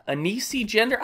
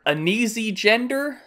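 First: "Anesi" tried with a hissed s in the middle; higher, softer, unsure "Anesi" with an s sound; second pronunciation attempt. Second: "Anesi" tried with a buzzing z in the middle; higher-pitched, unsure "Anesi" with a z sound; unsure pronunciation. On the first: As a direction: sound out "Anesi" as a-NEE-see, questioning. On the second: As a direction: sound out "Anesi" as a-NEE-zee, questioning. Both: Real, not acted. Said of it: "I don't know how to even pronounce".

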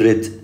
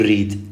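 First: ريد wrongly as a short, tight "rid"; mispronounced short vowel. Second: ريد wrongly as "reed", with an "ee"; mispronounced with ee. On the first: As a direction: show the mistake: ريد with too short a vowel. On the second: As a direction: show the mistake: ريد said "reed". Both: Shown as a demonstration. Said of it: "لا تقول ريد".

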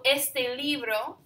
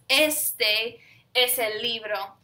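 First: Said in the usual way. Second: "este" stressed and drawn out, set apart from "es el libro"; emphatic ESTE. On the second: Shown as a demonstration. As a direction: lean hard on "este", then carry on. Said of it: "this is an emphatic this".

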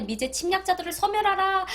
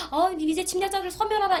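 First: High, loud rally-style chant of the slogan; propaganda slogan shout. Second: High, loud rally chant, falling at 소멸하라; repeated slogan shout. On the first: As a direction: bellow it like a North Korean rally. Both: Retold or imitated. Old North Korean propaganda slogan.

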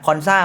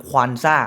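First: "คอนซ่า" with a plain k and open o; Konsa pronunciation. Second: "ควอนซ่า" with a kw glide at the start; Quansah pronunciation. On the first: Football host telling two similar player names apart, careful pronunciation. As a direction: say "คอนซ่า", no w glide after the k. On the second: Football host contrasting his own team's player name, careful pronunciation. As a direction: say "ควอนซ่า", adding w after the k. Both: Shown as a demonstration. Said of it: "มันจะออกเสียงต่างกันเล็กน้อย".

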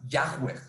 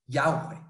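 First: "Yahweh" with a rough h mid-word, Yah-hweh; disputed pronunciation. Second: "Yahweh" with a softened middle, Yah-weh; variant pronunciation. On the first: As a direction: say "Yahweh" as spelled, h sounded before the w. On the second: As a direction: say "Yahweh" as Ya-gweh, lifted at the end. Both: Shown as a demonstration. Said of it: "no se pronuncia de esa forma".

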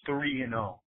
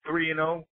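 First: Three and oh said as a flat fact, falling at the end; flat statement. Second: Three and oh lifted into a disbelieving question; incredulous question. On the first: Fan lecturing a rival about the score, flat statement. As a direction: drop the pitch on oh, a blunt statement. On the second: Fan throwing the score back at a rival, mocking question. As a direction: ask Three and oh back as if he can't believe it. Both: Shown as a demonstration. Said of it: "You understand those words?".

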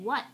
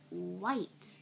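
First: "what" with a short clipped vowel, like the word what; misheard as what. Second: "white" with a full, clear long i glide, slightly rising; the word he meant. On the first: Retold or imitated. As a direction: say "what" quick and short, no glide. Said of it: "It sounded like he was saying". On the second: Shown as a demonstration. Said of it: "but he was saying".

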